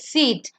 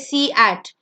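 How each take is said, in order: First: Only the first vowel is sounded, one syllable. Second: Both vowels are sounded as two syllables. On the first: The speaker calls it right. "It's seat" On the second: The speaker calls it wrong. "You don't say C at"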